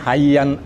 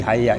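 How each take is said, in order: First: The word ends with an n sound. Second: The word stops on a final vowel. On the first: The speaker calls it wrong. "tidak lagi mengatakan hayyan, hayyan karena kurang indah" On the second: The speaker calls it right. "harus berhenti di hayya itu"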